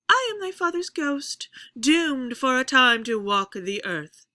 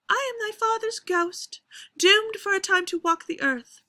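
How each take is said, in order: First: The pitch starts high and falls across the line. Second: The pitch stays high throughout the whole line. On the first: "I could do the opposite" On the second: "if it's all spoken up in a high pitch"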